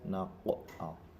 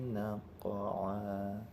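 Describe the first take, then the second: First: The q sound bounces with strong pressure. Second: The q sound bounces lightly and softly. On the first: The speaker calls it wrong. "qaf di sini terlalu ditekan" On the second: The speaker calls it right. "Seperti itu"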